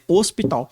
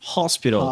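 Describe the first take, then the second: First: The first h sound is silent. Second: The first h sound is pronounced. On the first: This is how it is said in Portuguese. "a gente não fala dele" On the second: This is how it is said in English. "tem um H e o H ele é pronunciado"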